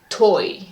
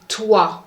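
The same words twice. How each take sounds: First: The vowel sounds like 'oi'. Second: The vowel sounds like 'wa'. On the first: The speaker calls it wrong. "Do not say toi" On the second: The speaker calls it right. "you have to say toi"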